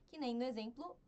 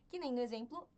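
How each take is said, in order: Both takes have the same delivery.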